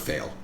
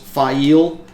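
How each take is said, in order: First: The name sounds just like 'fail'. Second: The name does not sound like 'fail'. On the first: This is a habit from reading it alone. The speaker calls it wrong. "I still call her Fail" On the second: This is how the name is meant to be said. The speaker calls it right. "I know her name is pronounced Fail"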